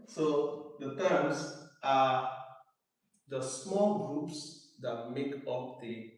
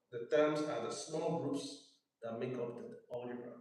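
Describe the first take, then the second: First: Slowly, word by word, for writing; slow dictation. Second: Said in the usual way. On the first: Shown as a demonstration. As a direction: dictate slowly so students can write. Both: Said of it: "let me know when you're done writing".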